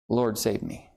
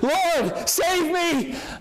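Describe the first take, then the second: First: It is said calmly, without urgency. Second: It is said with desperate, passionate urgency.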